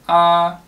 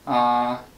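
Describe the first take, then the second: First: A level tone on a high pitch. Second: A level tone on a low pitch. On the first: "if you have a higher key" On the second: "you have a lower key"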